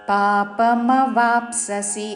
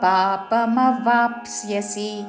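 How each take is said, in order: First: The middle cluster is said as 'psa'. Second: The middle cluster is said as 'psya'. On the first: The speaker calls it wrong. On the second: The speaker calls it right.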